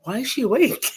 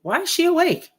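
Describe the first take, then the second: First: Higher, laughing through the doctor's line; doctor quote with a laugh. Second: Much higher, startled doctor asking; surprised doctor. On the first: Retelling the doctor's question to S1, laughing. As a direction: laugh while imitating the puzzled doctor. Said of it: "the doctor walks up and he goes". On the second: Doctor asks why the crash victim is awake, high surprise. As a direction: retell the doctor's disbelief, high and sharp. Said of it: "he says to me". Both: Retold or imitated.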